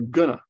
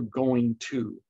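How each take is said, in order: First: The phrase is shortened into one quick word. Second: The phrase is said as two full words.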